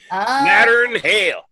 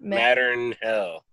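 First: It is said in a rural country accent. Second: It is said in the speaker's plain accent.

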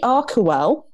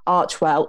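First: The name begins with a 'k' sound. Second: The name begins with a 'ch' sound. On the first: "CH will be pronounced like a K as in archetype" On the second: "not CH as in Archie"

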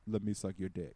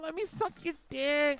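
First: The voice is low, smooth and confident. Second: The voice is pleading and whiny. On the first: The speaker acts as though he deserves it. The speaker calls it right. "like a man with a deep voice is like" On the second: The speaker is begging for it. The speaker calls it wrong. "Versus like, oh"

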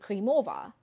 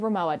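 First: The name is said with German pronunciation. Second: The name is said with English pronunciation. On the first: It would confuse an English-speaking audience. "the typical pronunciation of Ramoa in the German language" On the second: It is easier for an English-speaking audience. "That's how most people pronounce Ramoa"

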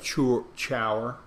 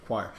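First: It is read as spelled, starting with 'ch'. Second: It is said as 'kwire', starting with 'kw'. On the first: The speaker calls it wrong. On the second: The speaker calls it right.

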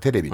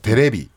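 First: It has a standard Tokyo pitch accent. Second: It has a Kansai pitch accent.

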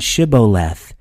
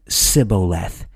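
First: The word begins with a 'sh' sound. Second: The word begins with an 's' sound. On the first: The speaker belongs to the Gileadites. The speaker calls it right. "The difference in Shibboleth and Sibboleth" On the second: The speaker is an Ephraimite. The speaker calls it wrong. "It's missing an H"

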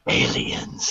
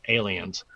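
First: It imitates the dude from Ancient Aliens. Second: It is said in a normal speaking voice.

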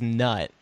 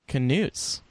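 First: The word starts with N; the K is silent. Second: The word starts with a K sound before N. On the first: "obviously, that reads as nut" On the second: "This is the official pronunciation according to Scholastic"

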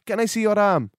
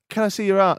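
First: It is said in a put-on foreign accent. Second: It is said in the speaker's ordinary accent. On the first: "No, I've got to do the voice" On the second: "Just say it normally"

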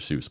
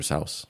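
First: Seuss is said the common, popular way. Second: Seuss is said the original, less common way. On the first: This is how most people say the name. "So it just became" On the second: This is how the name was meant to sound. "but it was supposed to be"

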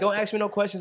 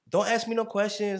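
First: It is said in the speaker's normal voice. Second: It is said in a put-on imitating voice.

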